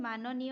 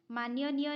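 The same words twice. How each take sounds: First: माननीय with plain "na", maananiya; correct pronunciation. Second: माननीय with an extra "y", maanyaniya; wrong pronunciation. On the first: Teacher giving the correct spelling, माननीय as "maananiya". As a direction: say माननीय as "maa-na-niya", no middle "y". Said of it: "होता है". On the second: Teacher rejecting a misspelling, माननीय said as "maanyaniya". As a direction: slip a "y" into माननीय, "maan-ya-niya". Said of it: "नहीं होता है". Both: Shown as a demonstration.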